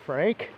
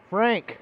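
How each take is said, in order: First: Said in the usual way. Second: A sharp call of a name, higher; calling out to Frank in the dark. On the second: Acted.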